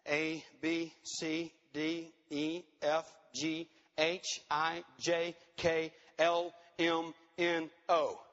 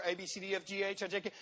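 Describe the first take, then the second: First: Low, evenly spaced letters; measured, monotone roll call of letters; deliberate counting out. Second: Quick mock skimming of a list; rattled-off list. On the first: Shown as a demonstration. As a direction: tick off each letter slowly, with pauses. Counts out long list of integrity letters. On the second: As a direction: race through the letters dismissively, without pauses. Mimics books racing through the list.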